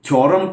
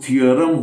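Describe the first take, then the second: First: It begins with 'thyo', one gliding vowel. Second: It begins with 'thee-uh', two separate vowels. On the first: The speaker calls it wrong. "थ्योरम कहते हुए सुना है" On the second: The speaker calls it right. "जबकि वो थियरम होना चाहिए"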